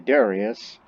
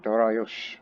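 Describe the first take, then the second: First: The name ends with an s sound. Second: The name ends with an sh sound. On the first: This is the usual Western form of the name. The speaker calls it wrong. "we Westerners often say Darius" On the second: This is the original Iranian form of the name. The speaker calls it right. "with the H at the end"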